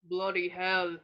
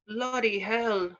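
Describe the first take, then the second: First: It is said in a lower voice. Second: It is said in a higher voice.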